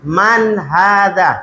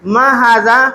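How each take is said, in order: First: "Man haza?" said slowly, falling on man; slow careful "Man haza?"; correct question. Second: "Ma haza?" asked with a rising, quick ma; wrong question. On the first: Teacher modelling the right question about a person. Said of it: "yang cocoknya apa?". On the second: Teacher showing the mistaken question about a person. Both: Shown as a demonstration.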